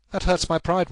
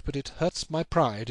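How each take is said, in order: First: Wounded pride. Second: Slow brooding. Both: Acted. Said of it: "It is a petty feeling".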